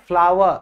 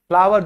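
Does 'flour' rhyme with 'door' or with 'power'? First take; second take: power; power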